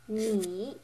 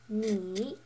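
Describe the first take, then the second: First: The pitch dips low, then comes up. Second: The same.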